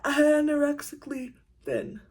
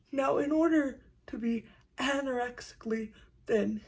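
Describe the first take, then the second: First: "Anorexically" punched louder and higher, falling; stressed quote. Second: Said in the usual way. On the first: Retold or imitated. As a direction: hit "Anorexically" hard, then drop. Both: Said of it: "someone said".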